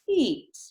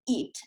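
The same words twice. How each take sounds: First: The word starts gently, with air flowing first. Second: The word starts with a tight, strained voice. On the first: The speaker calls it right. "using some of this flow and ease into the word" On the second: The speaker calls it wrong. "you can hear that strain in my voice when I'm starting the word"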